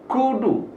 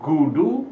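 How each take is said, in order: First: The first consonant is a full k sound. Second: The first consonant is a full g sound. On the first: "dan bukan kudu" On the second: "Bukan gudu"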